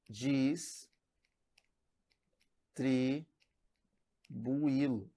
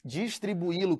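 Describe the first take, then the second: First: "Dis- tribuilo" in separate pieces with long pauses; split into syllables. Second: Said in the usual way. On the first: Shown as a demonstration. Teacher separating the word for pupils, "Dis- tribuilo" in slow, spaced pieces. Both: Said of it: "se você separar distribuilo".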